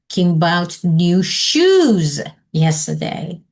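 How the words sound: The stress falls on the word shoes. "Or underline shoes"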